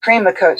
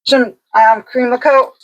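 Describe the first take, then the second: First: Eating dry crackers. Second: Talking through a mouthful of cracker; words round a bite of cracker; eating dry crackers. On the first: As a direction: mouth full of cracker, chewing. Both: Real, not acted. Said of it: "Sorry, I put a cracker in my mouth".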